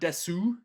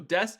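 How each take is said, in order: First: A clear u vowel is heard after the s. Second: It ends on the s with no vowel. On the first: The speaker calls it wrong. "It's not desu" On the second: The speaker calls it right. "Notice how there's no oo"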